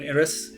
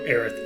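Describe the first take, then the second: First: The name ends with an s sound. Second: The name ends with a th sound. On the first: This is how it is said in Japanese. "not much of a th, more of an Eris" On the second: This is how it is said in English. "for us, it was more Aerith"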